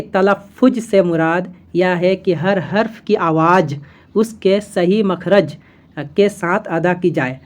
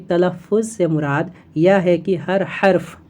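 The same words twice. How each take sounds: First: Sounds each letter from the wrong place in the mouth, carefully; deliberately wrong pronunciation. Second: Slow, careful reading of "तलफ़ुज़" and "हर्फ" with each letter from its proper makhraj; correct pronunciation. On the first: Teacher shows students the wrong way to pronounce the line. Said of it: "जैसा हम अभी गलत बोल रहे हैं". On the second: Teacher then shows students the correct pronunciation, slow and careful. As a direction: model the right sounds of every letter, slowly. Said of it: "लेकिन अगर आप इस तरह से बोले इसको". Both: Shown as a demonstration.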